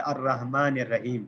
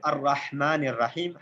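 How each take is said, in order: First: الرحمن الرحیم with a light plain h; common mistaken reading. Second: الرحمن الرحیم with a throaty ḥā; correct reading with ḥā. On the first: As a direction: soften ح in الرحیم to an Urdu h. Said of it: "عام طور پر غلط پڑھا جاتا ہے". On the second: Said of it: "ہا کے ساتھ ہے". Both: Shown as a demonstration.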